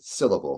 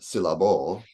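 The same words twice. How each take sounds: First: The stress is on the first syllable. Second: The stress is on a later syllable. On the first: The speaker calls it right. "the syll there is what I'm stressing. I say syllable" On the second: The speaker calls it wrong. "not syllable"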